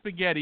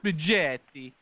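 First: It is said with a plain American pronunciation. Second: It is said with an exaggerated Italian pronunciation. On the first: The speaker calls it right. "At least say spaghetti" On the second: The speaker calls it wrong. "You don't have to say spaghetti or whatever"

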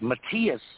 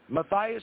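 First: The name is pronounced in a German way. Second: The name is pronounced in an English way. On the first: This is how it is said in Germany. "But it's Matthias in Germany" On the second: This is how the speaker personally says it. "That's what I say"

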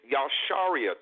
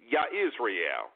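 First: The name is said with a 'shar' sound inside. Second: The name is said as Yah plus Israel. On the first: The speaker calls it right. "that is the Hebrew correct pronunciation" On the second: The speaker calls it wrong. "they're saying Yah-Israel"

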